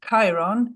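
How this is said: The name is said with a British English pronunciation. "in the British pronunciation"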